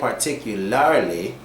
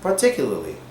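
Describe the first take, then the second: First: The second R sound is clearly pronounced. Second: The second R sound is dropped. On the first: The speaker calls it wrong. "We don't actually say particularly" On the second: The speaker calls it right. "you can just say particularly"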